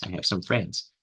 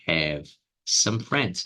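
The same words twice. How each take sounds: First: Said in the usual way. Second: Very slow "have some friends"; slowed teaching read; slow demo. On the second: Shown as a demonstration. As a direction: spell it out slowly for students. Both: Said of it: "eu poderia falar".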